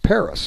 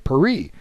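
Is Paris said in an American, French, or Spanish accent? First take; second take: American; French. First: It is said with an American accent. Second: It is said with a French accent. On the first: "if you're American, you'll say it's it's Paris" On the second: "if you ask somebody in France what their capital is, they'll say Paris"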